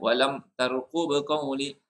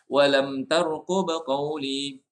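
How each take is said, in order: First: The m of walam is cut off abruptly. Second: The m of walam is held for one beat. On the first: The speaker calls it wrong. "kita jangan walam tarqub qawli. Kalau macam tu langsung tak ada eh" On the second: The speaker calls it right. "Dia ada ada ada dia punya hak satu harkat"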